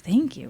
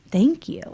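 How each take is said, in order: First: Puzzled echo. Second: A lightly voiced, higher, sincere thank you from the tech; grateful thanks. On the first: Retold or imitated. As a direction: repeat "Thank you?" as a baffled, falling question in her own voice. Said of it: "I remember kind of thinking". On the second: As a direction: say "Thank you." as heartfelt gratitude with a lifted, rising start. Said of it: "he had said".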